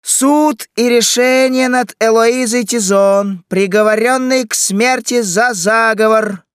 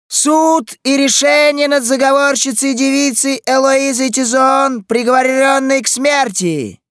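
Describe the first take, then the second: First: Loud, high, drawn-out proclamation; crier's shout. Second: Loud, high proclamation shouted down the street; town crier. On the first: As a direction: announce the verdict like a street herald. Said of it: "На улице снова послышался крик". (протяжный крик глашатая) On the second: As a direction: cry out the sentence like a herald. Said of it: "раздался хриплый голос глашатая". (громкий крик глашатая) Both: A narrator's reading.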